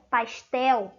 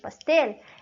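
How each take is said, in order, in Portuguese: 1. A palavra é pronunciada do jeito português. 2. A palavra é pronunciada do jeito espanhol. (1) "Em português eu pronuncio dessa maneira" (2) "em espanhol, quando eu uso a palavra pastel"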